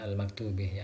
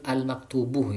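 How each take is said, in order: First: The word ends with an 'ih' vowel sound. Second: The word ends with an 'uh' vowel sound. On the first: The speaker calls it wrong. "bukan al-maktubih" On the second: The speaker calls it right. "Ini yang betul al-maktubuh"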